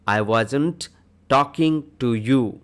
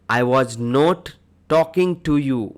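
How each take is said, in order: First: "Was not" is shortened to one word, wasn't. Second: "Was not" is said as two full words. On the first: "was not को ही short में wasn't बोला जाता है" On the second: "I was not"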